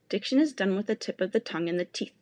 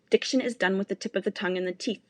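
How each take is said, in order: The two takes are said the same way.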